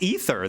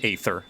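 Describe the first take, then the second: First: The first vowel sounds like 'ee'. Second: The first vowel sounds like 'ay'. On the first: The speaker calls it right. "it's pronounced ether. That's how they pronounce it" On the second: The speaker calls it wrong. "They don't pronounce it aether. I know it's got an A in it"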